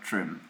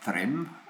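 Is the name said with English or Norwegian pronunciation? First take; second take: Norwegian; English. First: The name is said with Norwegian pronunciation. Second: The name is said with English-style pronunciation. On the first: The speaker calls it right. "but Trym" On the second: The speaker calls it wrong. "not Trym"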